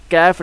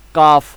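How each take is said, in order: First: کیف with spread lips and a fronted "ae" vowel; wrong widened kaf. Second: کاف with relaxed lips and an open "aa" vowel; plain correct kaf. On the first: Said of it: "جب ہونٹوں کو چوڑا کریں گے تو یہ کیف کی آواز". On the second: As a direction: say کاف simply, lips not spread. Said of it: "بالکل سادہ سا پڑھنا ہے، ہونٹوں کو چوڑا نہیں کرنا". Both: Shown as a demonstration.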